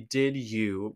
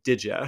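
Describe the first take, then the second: First: The word 'you' is said in full. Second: The word 'you' is reduced to 'ya'.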